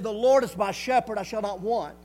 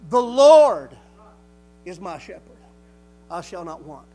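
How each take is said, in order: First: It is read at normal speed. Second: It is read very slowly.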